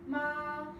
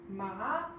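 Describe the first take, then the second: First: The pitch stays level and steady. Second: The pitch rises upward. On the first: It means mother. "which is a straight line" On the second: It means numb. "which is an upward slant"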